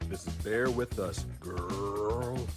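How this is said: The word 'girl' is said flamboyantly.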